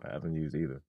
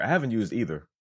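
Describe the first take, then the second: First: Low, soft mumble under the breath; low mumbled voice. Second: Said in the usual way. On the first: Pretend. Second take, lower and softer.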